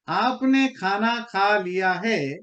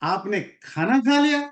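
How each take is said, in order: First: It is said in a plain, neutral statement tone. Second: It is said in an outraged, indignant tone. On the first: The listener has simply eaten. "इसका simple मतलब यही है कि आपने खाना खा लिया" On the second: The listener had no right to eat it. "How dare you to eat it."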